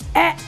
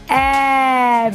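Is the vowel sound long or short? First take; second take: short; long. First: The vowel sound is short and less open. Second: The vowel sound is long and open. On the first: "When you open a bit, a, that is called short vowel sound" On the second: "when you open your mouth, that is called long vowel sound"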